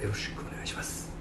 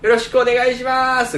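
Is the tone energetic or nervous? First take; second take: nervous; energetic. First: It is said in a tense, nervous tone. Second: It is said in a lively, energetic tone.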